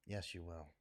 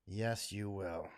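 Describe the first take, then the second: First: Much softer, lower repeat; quieter insistence. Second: Slow, low, deliberate; slow final insistence. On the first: Answering future generations, barely above a murmur. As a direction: let it sink to almost nothing. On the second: Answering future generations, slow and deliberate. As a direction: lay each word down slowly. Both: Real, not acted.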